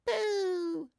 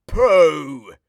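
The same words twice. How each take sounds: First: Put-on very high cheerful baby "Pooh"; a toddler copying the word. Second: Much louder "Pooh" at the smell; disgusted. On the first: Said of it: "says the baby". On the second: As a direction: recoil from a dirty nappy. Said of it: "he says". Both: A narrator's reading.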